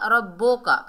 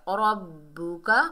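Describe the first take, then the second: First: रब्बो का with an o sound, split in two; wrong reading. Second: रब्बुका with a clear u, one word, slow; correct reading. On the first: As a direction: say रब्बो का as the mistaken o vowel. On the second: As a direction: say रब्बुका smoothly with u. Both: Shown as a demonstration. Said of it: "रब्बो का नहीं पढ़ना".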